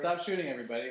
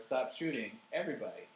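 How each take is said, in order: First: It runs straight on without a pause. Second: A short break comes before 'everybody'. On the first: Nobody should be shot. "The first one's for the victims" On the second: Everyone is being told to stop shooting. "The second one's for the people who are"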